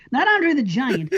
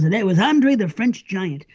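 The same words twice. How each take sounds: First: Said in the usual way. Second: French pushed in, slow; stress on French. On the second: Shown as a demonstration. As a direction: lean on the added French.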